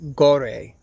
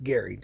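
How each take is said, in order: First: The name is said like "Gore". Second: The name is said like "Gary". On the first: "Or I guess you could pronounce it um, um, Gore. Maybe" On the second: "I'm pretty sure it's pronounced Gary, just like Gary"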